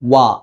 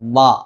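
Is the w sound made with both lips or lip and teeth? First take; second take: both lips; lip and teeth. First: Only both lips are used, rounded forward. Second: The lower lip touches the upper front teeth. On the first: The speaker calls it right. "രണ്ട് ചുണ്ടുകൾ മാത്രം ഉപയോഗിച്ചുകൊണ്ട് മാക്സിമം മുന്നിലേക്ക് കൂർപ്പിച്ചുകൊണ്ടാണ്" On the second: The speaker calls it wrong. "താഴത്തെ ചുണ്ട് മേലത്തെ മുൻപല്ലിൽ ഉപയോഗിച്ച് വാ ഇങ്ങനെ ഉച്ചരിക്കാറുണ്ട്. അത് തെറ്റാണ്"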